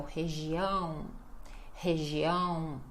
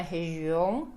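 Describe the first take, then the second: First: Região with a long nasal ão ending; stress on ÃO. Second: Região with the final ão weakened to an unstressed on; wrong stress. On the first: Teacher models the correct word, região stressed on nasal ão. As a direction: hold the final nasal ão of região. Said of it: "A ênfase vai ser sempre no ão". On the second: Teacher warns learners what not to say, região with diminished ending. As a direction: mispronounce região, cutting down the ão. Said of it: "não pode diminuir o final da sílaba". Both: Shown as a demonstration.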